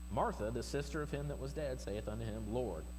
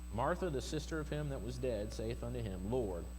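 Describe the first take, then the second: Both takes have the same delivery.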